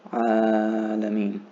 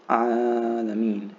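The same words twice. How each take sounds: First: Alameen slow with the A held two counts; held alif. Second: Alameen slow, the first A drawn out; long alif. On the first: Teacher repeating Alameen, holding the alif two counts. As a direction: draw out the A in Alameen for two beats. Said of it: "hold that for two counts". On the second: Teacher slowly modeling alameen for reciting students. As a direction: stretch the opening A of alameen. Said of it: "So notice the, the alif here". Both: Shown as a demonstration.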